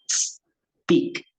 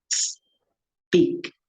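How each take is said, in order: The two takes are said the same way.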